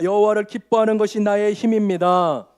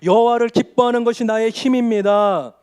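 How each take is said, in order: First: It is said quietly. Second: It is said loudly.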